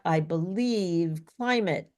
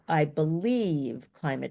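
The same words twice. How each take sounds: First: The word climate is stressed. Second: The word believe is stressed. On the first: "So like climate was also stressed" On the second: "not only did she have a pitch rise a little bit, she also like extended it a little"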